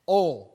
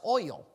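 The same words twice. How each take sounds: First: The word is said without the 'oy' glide. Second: The word is said with a clear 'oy' glide. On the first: "There's no I in there. Oil, O-L" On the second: "But there is an I, it's oil"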